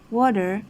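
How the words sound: It is said in an American accent. "American English would say water"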